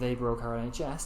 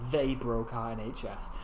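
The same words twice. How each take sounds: First: No word stands out with special stress. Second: The word they is strongly stressed. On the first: "rather than saying" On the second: "it emphasises that particular word"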